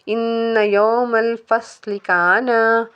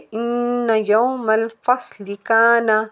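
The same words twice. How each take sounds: First: The final vowel of kana is drawn out long. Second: The final vowel of kana is kept short. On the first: The speaker calls it wrong. "ऐसे पढ़ेंगे तो गलत हो जाएगा" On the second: The speaker calls it right. "इसको पढ़ेंगे"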